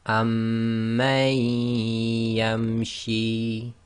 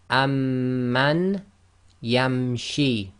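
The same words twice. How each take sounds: First: The n merges into a nasalized, doubled y. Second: The n sound is pronounced clearly before y.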